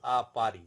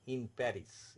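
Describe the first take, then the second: First: "a Paris" as French "ah pa-ree", silent s; French pronunciation. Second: "Paris" said in English with the final s sounded; English pronunciation. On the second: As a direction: say Paris the English way, ending in "iss". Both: Shown as a demonstration. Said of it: "in English".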